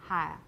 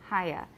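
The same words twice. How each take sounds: The two takes are said the same way.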